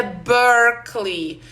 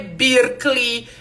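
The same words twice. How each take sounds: First: "Berkeley" said slowly as BERK-lee, first E like A; correct pronunciation. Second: "Berkeley" said with an EE sound, like BEER-klee; wrong pronunciation. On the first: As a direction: model it right, slow BERK-lee. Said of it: "é Berkeley". ("Berkeley" pronunciado certo e devagar: BÉRK-li) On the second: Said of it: "não é Berkeley". ("Berkeley" pronunciado errado, com som de I: BIR-kli) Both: Shown as a demonstration.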